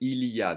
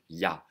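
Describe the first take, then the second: First: All three syllables, including 'il', are said. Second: The 'il' is dropped, leaving a single syllable. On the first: "They will almost never say il y a" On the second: "They will skip the il entirely and sounds like yes in German"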